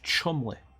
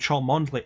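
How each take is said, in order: First: The name is said short, as two syllables. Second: The name is said in full, following its spelling. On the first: The speaker calls it right. "That's pronounced Chumley" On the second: The speaker calls it wrong. "everybody keeps calling him Cholmondeley, and it irritates the hell out of him"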